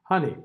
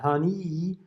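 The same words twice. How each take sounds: First: Honey ending on a clear short i; right honey. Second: Honey ending on a lax uh-like sound, wrongly. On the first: Teacher modelling the correct final vowel for students. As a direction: finish honey on the capital I sound. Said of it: "final sound is a capital I". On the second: Teacher showing students a wrong final vowel, softly. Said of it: "It's not honey". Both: Shown as a demonstration.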